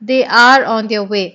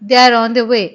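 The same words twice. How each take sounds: First: They are is said slowly as two full words. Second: They are is said fast, run together as one.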